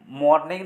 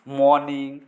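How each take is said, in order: First: The r sound is pronounced. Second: The r sound is silent. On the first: The speaker calls it wrong. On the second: The speaker calls it right.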